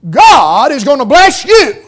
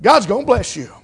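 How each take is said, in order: First: Higher, louder mock prosperity preaching; imitated preacher's promise. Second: Said in the usual way. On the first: Mimicking feel-good preachers promising a blessing, loud and emphatic. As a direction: proclaim it big, punching each word like a preacher. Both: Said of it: "heard them say".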